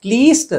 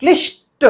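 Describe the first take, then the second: First: क्लिष्ट said as "kleest"; long ee and plain s in क्लिष्ट; raised "kleest" for क्लिष्ट; wrong long vowel. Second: क्लिष्ट with short i and strong sh; high, emphatic "klish-ta" for क्लिष्ट. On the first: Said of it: "क्लिष्ट नहीं है वो". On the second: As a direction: lean on ष्ट in क्लिष्ट. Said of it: "सही है". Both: Shown as a demonstration.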